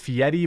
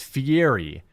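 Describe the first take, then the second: First: The middle has a T or D sound. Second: The middle has no T or D sound. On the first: This is how the name's owner says it. The speaker calls it wrong. "he pronounces it Fieri" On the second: This is how the name should be said. The speaker calls it right. "There's no T or D in it"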